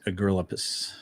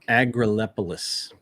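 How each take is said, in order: First: The name is said fast, syllables dropped. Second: The name is said in full, every syllable.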